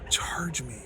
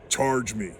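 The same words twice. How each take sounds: First: It is said in an imitated female voice. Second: It is said in an imitated male voice.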